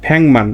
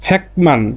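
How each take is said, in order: First: The first syllable ends in an ng sound. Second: The first syllable ends in a k sound. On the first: The speaker calls it right. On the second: The speaker calls it wrong.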